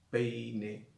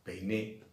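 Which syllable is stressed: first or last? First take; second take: first; last. First: The stress falls on the first syllable. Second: The stress falls on the last syllable. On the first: It names the noun, a comb. "Cuando me estoy refiriendo al sustantivo peine" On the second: It is a past form of the verb to comb. "no digo peiné"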